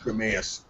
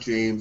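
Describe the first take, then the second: First: The name is said with two syllables. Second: The name is said as one syllable. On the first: The speaker calls it right. "It looks like James, but it's like Jameus or something like that" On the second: The speaker calls it wrong. "it's not James"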